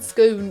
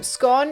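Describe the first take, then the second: First: The word is said the English way. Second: The word is said the Scottish way. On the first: "that's an English pronunciation" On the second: "scone is a Scottish pronunciation"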